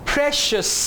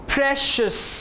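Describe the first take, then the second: The two takes are said the same way.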